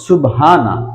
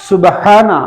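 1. h-এর উচ্চারণ হালকা, সাধারণ h। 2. h-এর উচ্চারণ গভীর, গলা থেকে আসা h। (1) "হায় হাওয়াজ ব্যবহার করে থাকি" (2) "হায়হতি এর পরিবর্তে"

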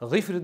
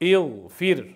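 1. Kelime doğrudan bir ünsüzle başlıyor. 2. Kelime eklenen bir ünlüyle başlıyor. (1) "g'ifr deb bo'lmaydi" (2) "Ana shunda uning oldiga hamza keltiriladi"

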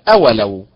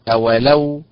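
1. النبر على المقطع الأول. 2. النبر على المقطع الأخير. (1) "وليست أولو بالنبر على حركة الهمزة" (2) "بالنبر على حركة اللام"

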